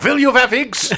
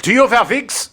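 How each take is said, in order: First: High, laughing German reporter voice; a German accent with vee for will; mock German accent. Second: High, put-on German reporter accent; imitating a German reporter's clumsy question; mock German reporter. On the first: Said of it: "He's like". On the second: Friend retells Dominic's German reporter bit. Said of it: "pretends to be a German reporter".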